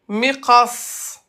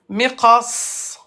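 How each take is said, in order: The two takes are said the same way.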